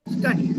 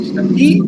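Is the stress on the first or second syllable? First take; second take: first; second. First: The stress is on the first syllable. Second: The stress is on the second syllable. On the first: The speaker calls it right. "it's on the first half" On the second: The speaker calls it wrong. "Not study"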